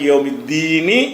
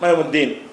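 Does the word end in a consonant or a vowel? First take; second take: vowel; consonant. First: The word ends with a vowel after the n. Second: The word ends on a stopped n sound. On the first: It is joined to the next word in one breath. "மூச்சு விடலைன்னா" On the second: The reciter stops to take a breath. "மூச்சை விட்டுட்டீங்கன்னா"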